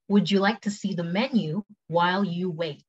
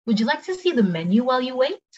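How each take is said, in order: First: Slower, evenly spaced words; careful, measured model question; slow take. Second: Brisk, high-pitched question; quicker, lifted service question; quick take. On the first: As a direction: take it slowly for learners. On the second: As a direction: ask it at conversational speed. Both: Shown as a demonstration. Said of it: "cepet sama pelan".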